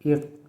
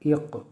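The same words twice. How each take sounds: First: The final consonant stops flat without an echo. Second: The final consonant is released with an echoing bounce. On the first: "बग़ैर कलकला के" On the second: "कलकला के साथ"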